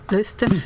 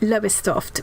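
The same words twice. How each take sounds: First: The name is pronounced the way locals say it. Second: The name is pronounced just as it is spelled. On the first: "they say it kind of like Lowestoft" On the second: "It looks like Lowestoft"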